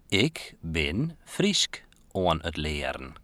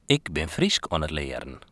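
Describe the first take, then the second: First: It is spoken more slowly than normal. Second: It is spoken at a normal pace.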